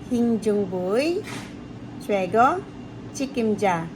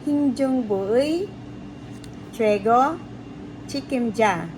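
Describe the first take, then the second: No difference in how they are said.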